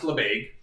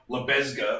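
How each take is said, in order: First: It is said the French way, silent letters dropped. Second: Every letter is sounded as English spelling suggests. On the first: The speaker calls it right. "but it's pronounced Lebesgue" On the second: The speaker calls it wrong. "It looks like Lebesgue or something"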